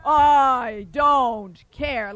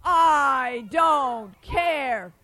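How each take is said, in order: First: Loud giant refrain; loud defiant giant. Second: Loud, very slow giant voice; real loud. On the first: Acted. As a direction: say it like a stubborn giant. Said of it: "And the giant said". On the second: Shown as a demonstration. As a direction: shout it slowly for the kids. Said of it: "Let me hear that again real loud".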